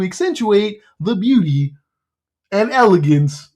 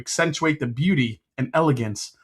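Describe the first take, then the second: First: It is read in a put-on cartoon frog voice. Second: It is read in a plain, natural voice.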